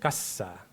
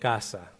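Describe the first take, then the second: First: The consonant after the first vowel is lengthened. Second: The first vowel is held slightly longer. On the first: This is the Seri pronunciation. "seri sería casa" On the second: This is the Spanish pronunciation. "español sería casa"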